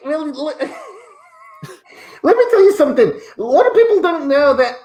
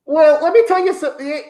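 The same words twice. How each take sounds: First: Giggling while trying to stay in character; laughing. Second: Said in the usual way. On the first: Acted. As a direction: laugh your way through the catchphrase. Cracks up on the catchphrase.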